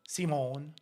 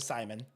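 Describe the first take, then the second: First: The name is said with a French accent. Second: The name is said with an English accent.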